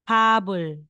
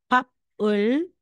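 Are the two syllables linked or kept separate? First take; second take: linked; separate. First: The final consonant moves into the next syllable. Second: The final consonant stays with the first syllable. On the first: The speaker calls it right. "magiging habol" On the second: The speaker calls it wrong. "instead na sasabihin nating papul"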